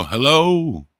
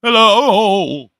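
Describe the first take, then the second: First: Raised, pleading call; first call, already pitched up; desperate hello. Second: Much higher and louder pleading call; second hello, pushed higher and louder; desperate louder hello. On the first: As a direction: call out a lost, hopeful hello. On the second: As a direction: shout it out into an empty world. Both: Retold or imitated. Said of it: "all desperate 'cause no one else is left".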